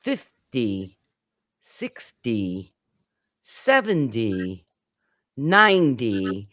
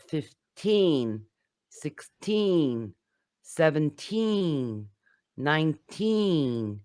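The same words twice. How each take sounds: First: FIF-dee, SIX-dee, SEV-en-dee, NINE-dee, falling away low; teacher's demo punching the start of fifty, sixty, seventy, ninety; stress on first syllable. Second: Put-on long falling TEEN in fifteen, sixteen, seventeen, nineteen; slow teacher demo leaning on each "teen"; stress on TEEN. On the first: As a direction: hit the first syllable, drop to a D sound. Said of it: "stress the first syllable". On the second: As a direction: stretch the final TEEN of every number. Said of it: "to stress the teen". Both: Shown as a demonstration.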